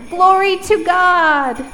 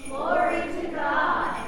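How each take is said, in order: First: Loud, high, slow call; really loud. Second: Distant group echo. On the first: Shown as a demonstration. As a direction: proclaim it. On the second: Real, not acted. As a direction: say it back together. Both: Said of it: "repeat after me".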